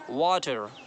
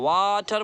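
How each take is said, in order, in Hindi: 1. पहला स्वर बस मध्यम रूप से लंबा किया गया है। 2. पहला स्वर बहुत ज़्यादा खींचा गया है। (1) "बहुत ज़्यादा नहीं खींचना ... पहले वाले को ज़्यादा खींचना" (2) "ज़्यादा खींचेंगे तो गड़बड़ गड़बड़ हो जाएगा ... वाटर बोल देंगे तो फिर गलत हो जाएगा।"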